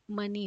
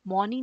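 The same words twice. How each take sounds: First: मनी with a short a sound; correct money. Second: मौनी with an open au sound; wrong vowel mauni. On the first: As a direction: say मनी as ma-ni, the right way. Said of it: "ये मनी होता है". (सही उच्चारण मनी, छोटे अ के साथ) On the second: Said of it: "मौनी नहीं होता". (गलत उच्चारण मौनी, औ की आवाज़ के साथ) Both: Shown as a demonstration.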